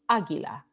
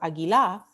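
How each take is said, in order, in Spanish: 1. El acento cae en la primera sílaba. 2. El acento cae en una sílaba posterior. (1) "we say águila" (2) "We don't say águila or águila"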